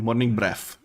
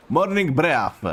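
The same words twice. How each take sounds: First: Said in the usual way. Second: Breath ending in an F, slow and laughing; Morning Breath drawn out as breaf with F. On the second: Shown as a demonstration. Streamer to chat, laughing, saying Morning Breath as breaf. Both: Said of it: "with F instead of T H".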